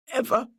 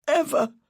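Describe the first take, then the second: First: Said in the usual way. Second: Climax of a begging repeat; desperate plea. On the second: A narrator's reading. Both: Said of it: "said his muffled voice".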